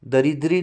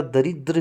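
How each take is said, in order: First: दरिद्री with a final ee, the wrong ending; wrong form. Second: दरिद्र ending on र with no vowel; दरिद्र clipped at र; correct form. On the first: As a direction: show दरिद्री as the mistake. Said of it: "नहीं होता". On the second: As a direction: give the right दरिद्र, stopping on र. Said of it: "होता है". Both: Shown as a demonstration.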